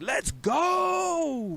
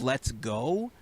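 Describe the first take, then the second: First: It is said loudly with high energy. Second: It is said flatly with low energy.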